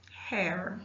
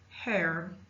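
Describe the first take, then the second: First: The word ends with an audible R sound. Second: The same.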